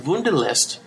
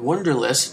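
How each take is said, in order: First: It is said with a non-American pronunciation. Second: It is said with an American pronunciation.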